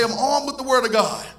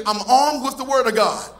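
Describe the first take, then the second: First: Said in the usual way. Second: Firm declaration with conviction; like you mean it. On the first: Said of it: "Oh, come on, that's weak". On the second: Acted. Preacher leads the church saying it with conviction. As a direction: say it as if you believe it. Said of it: "Say it like you mean it".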